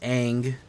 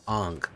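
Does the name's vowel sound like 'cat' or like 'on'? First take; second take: cat; on. First: The vowel sounds like the one in 'cat'. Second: The vowel sounds like the one in 'on'. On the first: The speaker calls it wrong. "Why are you saying it wrong?" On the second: The speaker calls it right. "It's pronounced Ong"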